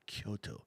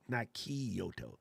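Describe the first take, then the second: First: The name is said with fewer syllables. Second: The name is said with an extra syllable. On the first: The speaker calls it right. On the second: The speaker calls it wrong. "There's not enough letters in there for that"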